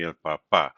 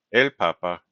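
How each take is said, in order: First: "papá" as pa-PÁ, weight on the last syllable; stress on final syllable. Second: "papa" as PA-pa, weight on the first syllable; stress on second-last syllable. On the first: Teacher contrasts dad with Pope, final-syllable stress on "papá". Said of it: "telling us that the stress is on the final syllable". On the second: Teacher contrasts Pope with dad, first-syllable stress on "papa". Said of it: "the stress is on the second and last syllable". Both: Shown as a demonstration.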